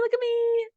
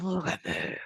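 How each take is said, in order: First: It is said in a cute little voice. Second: It is said in a gremlin voice.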